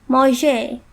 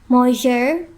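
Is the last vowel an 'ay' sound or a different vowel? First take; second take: ay sound; different vowel. First: The last vowel is an 'ay' sound. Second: The last vowel is not an 'ay' sound. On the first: The speaker calls it right. "we pronounced it as manger" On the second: The speaker calls it wrong. "instead of saying manger"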